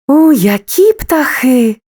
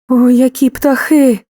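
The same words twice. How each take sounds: First: The voice sounds delighted and admiring. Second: The voice sounds frightened and afraid. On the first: The speaker admires the birds. "захоплення" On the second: The speaker is scared of the birds. "страх"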